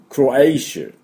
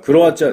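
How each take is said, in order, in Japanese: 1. その単語は'shuh'の音で終わります。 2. その単語は'chia'の音で終わります。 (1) "クロエイシュって言うんですよ" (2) "クロアチアじゃないですね"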